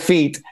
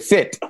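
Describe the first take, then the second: First: The vowel is a tense, closed Italian-style i. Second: The vowel is a lax, very short i. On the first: "È facilissimo dire fit" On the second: "Il problema diventa quando devi dire fit"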